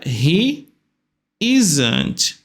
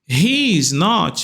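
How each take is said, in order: First: Is and not are merged into one word. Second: The phrase is said as three separate words.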